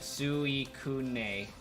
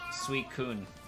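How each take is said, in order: First: The name ends with an added 'neh' syllable. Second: The name ends with a bare 'n' sound. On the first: The speaker calls it wrong. "if they wanted it to be Suikune, they would have used N E" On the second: The speaker calls it right. "they very deliberately use the N by itself"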